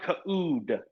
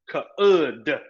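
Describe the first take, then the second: First: The vowel is a long ooh sound. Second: The vowel is a short uh sound. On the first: The speaker calls it wrong. "it's not could" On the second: The speaker calls it right. "This has a short U sound. This is uh uh uh"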